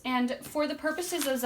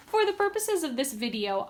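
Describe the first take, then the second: First: Said in the usual way. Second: Laughing. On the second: Real, not acted. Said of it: "excuse me".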